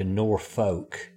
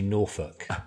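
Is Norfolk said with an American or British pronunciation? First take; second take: American; British. First: It is said with an American pronunciation. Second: It is said with a British pronunciation. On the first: The speaker calls it wrong. "as you would say in America" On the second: The speaker calls it right. "it's actually Norfolk. So just putting it out there, the correct pronunciation"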